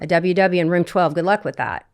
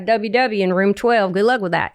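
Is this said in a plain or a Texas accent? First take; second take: plain; Texas. First: It is said in the speaker's plain accent. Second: It is said in a Texas accent.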